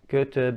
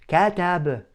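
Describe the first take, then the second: First: The first vowel is opened moderately. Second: The first vowel is opened too wide. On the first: The speaker calls it right. "It has to be open to a medium extent" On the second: The speaker calls it wrong. "I don't over exaggerate the opening of the mouth. I don't say katab"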